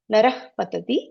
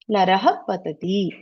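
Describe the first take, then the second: First: The final h sound blends quickly into patati. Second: The final h is released with a full echo vowel.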